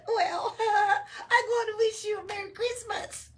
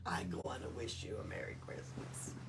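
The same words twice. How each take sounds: First: High, loud elf voice through giggles; mock him while laughing. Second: Whispered. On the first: Elf mocking Oscar's reply, laughing high and loud. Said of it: "They exploded into laughter". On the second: Shown as a demonstration. Reader repeats line whispered.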